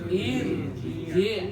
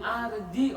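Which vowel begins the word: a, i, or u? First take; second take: i; a. First: The word begins with an i vowel. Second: The word begins with an a vowel. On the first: The speaker calls it right. "maka dibaca irji" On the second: The speaker calls it wrong. "Jangan arji"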